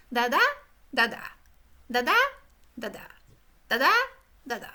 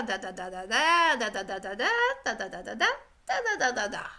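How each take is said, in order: First: "da da" in short separate two-beat bursts with pauses between; choppy two-beat chunks. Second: "da da da da da" in smooth, even five-beat runs; flowing five-beat chunks. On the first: Teacher showing how students chopped their speech into two-beat bits. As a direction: tap out each "da da" as a halting pair. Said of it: "the students spoke in two chunks". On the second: Teacher showing the professor's steady five-chunk rhythm. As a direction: roll the "da"s along in long regular phrases. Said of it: "Professor Lyon spoke da da da da da". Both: Shown as a demonstration.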